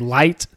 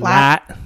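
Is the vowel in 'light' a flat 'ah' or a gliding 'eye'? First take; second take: gliding eye; flat ah. First: The vowel glides like 'eye'. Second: The vowel is a flat, drawn 'ah'. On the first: This is how the speaker says it. "I'll say light" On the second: This is how country people say it. "some country people say lat"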